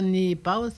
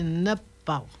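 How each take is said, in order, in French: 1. La première voyelle se prononce 'ee'. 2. La première voyelle se prononce 'eh'. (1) "C'est pas ni pas" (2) "c'est ne pas"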